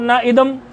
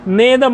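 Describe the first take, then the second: First: The two words are said separately. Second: The two words merge into one joined word. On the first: The speaker calls it wrong. "ना इदम ऐसे बोल दोगे" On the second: The speaker calls it right. "छंद की दृष्टि से इसका उच्चारण होगा"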